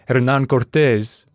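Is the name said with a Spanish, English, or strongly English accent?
Spanish. The name is said with a Spanish accent. It sounds out of place beside the rest. "I feel like an ass saying Hernán Cortés when the rest of it sounds like a Canadian schmuck"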